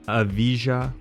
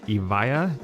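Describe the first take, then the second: First: The J sound is pronounced. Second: The J sound is left silent. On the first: The speaker calls it wrong. "not the Evija, which a lot of people say" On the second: The speaker calls it right. "The J is silent. It's Lotus Evija is the correct pronunciation"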